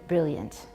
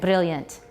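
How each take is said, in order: First: The R is a regular English R. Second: The R is a quick tongue tap.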